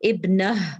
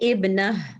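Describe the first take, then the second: First: The word ends with a soft h sound. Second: The same.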